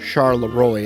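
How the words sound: It is pronounced with an American accent.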